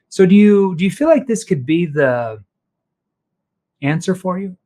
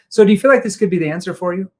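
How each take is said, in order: First: It is said slowly with a hesitating pause. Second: It is said quickly without any pause. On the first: It makes the listener think deeper. The speaker calls it right. "if he slows down and he leans in ... the verbal pause" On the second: It invites a knee-jerk reaction. The speaker calls it wrong. "Too fast"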